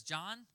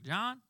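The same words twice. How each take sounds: First: Said in the usual way. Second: "John?" with a Mississippi Southern lilt, higher rising tune; Mississippi accent. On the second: Retold or imitated. Son imitating his Mississippi mom saying his name, Mississippi accent. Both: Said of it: "well, she's from Mississippi, so it's like".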